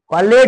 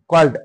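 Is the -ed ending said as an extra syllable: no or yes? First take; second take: yes; no. First: The ending is a separate syllable with a vowel. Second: The ending is a bare d sound, no extra syllable. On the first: The speaker calls it wrong. "कॉलेड नाही" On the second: The speaker calls it right. "कॉल ड कॉल्ड"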